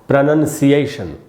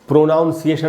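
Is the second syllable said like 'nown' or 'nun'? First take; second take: nun; nown. First: The second syllable sounds like 'nun'. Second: The second syllable sounds like 'nown'. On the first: The speaker calls it right. "इसका शुद्ध उच्चारण होता है दोस्तों प्रोनंसिएशन" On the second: The speaker calls it wrong. "इसको हमको प्रोनाउंसिएशन नहीं पढ़ना चाहिए"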